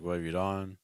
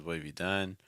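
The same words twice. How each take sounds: First: "done" said as "dawn", with an open AW vowel; wrong vowel dawn. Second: "done" with a short UH vowel, as in "dun"; correct done vowel. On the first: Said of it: "you're saying dawn". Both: Shown as a demonstration.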